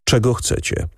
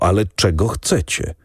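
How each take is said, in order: First: Cool, composed question; calm question. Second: Said in the usual way. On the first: A narrator's reading. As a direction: ask calmly, fully in control. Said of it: "Spytał spokojnie".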